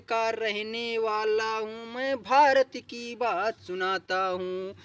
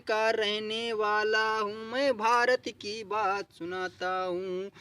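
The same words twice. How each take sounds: The two takes are said the same way.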